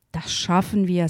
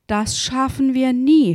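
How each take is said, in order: First: Said in the usual way. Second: Higher, exasperated exclamation; huffing despair. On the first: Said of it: "sagte der andere". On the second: A narrator's reading. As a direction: huff it out as if giving up. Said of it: "schnaufte der Mann".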